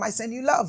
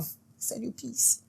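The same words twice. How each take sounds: First: Said in the usual way. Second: Soft, slow whispered blessing. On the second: Acted. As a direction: breathe the words out slowly.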